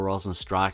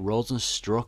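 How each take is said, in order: First: The last syllable sounds like 'strike'. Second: The last syllable sounds like 'struck'. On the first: "I've always called him Rosenstrike, but apparently that's not how you say it" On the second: "Is it Rosenstruck or Rosenstrike?"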